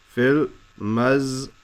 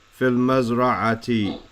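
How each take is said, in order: First: "Fil mazra'ati" broken up with pauses, Fil, maz, ra, a, ti; syllable by syllable. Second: Said in the usual way. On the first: Shown as a demonstration. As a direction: sound out "Fil mazra'ati" piece by piece. Teacher breaks the phrase into syllables.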